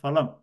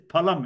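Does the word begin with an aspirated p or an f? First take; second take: f; aspirated p. First: The word begins with an f sound. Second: The word begins with an aspirated p sound. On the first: The speaker calls it wrong. "It is not phalam. It is not F A L A M" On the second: The speaker calls it right. "it is phalam. ... It is P H A L A M"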